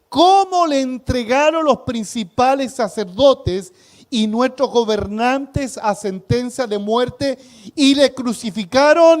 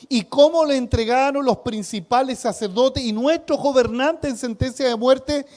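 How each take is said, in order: First: It is read slowly. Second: It is read at normal speed.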